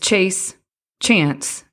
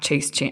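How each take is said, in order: First: The two words are separated by a pause. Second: The two words run together without a pause. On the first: They are two separate items in a list. The speaker calls it right. "It's chase, chance, and creativity" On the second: Chance is the object of chasing. The speaker calls it wrong. "not chase chance, not like you're going to chase chance"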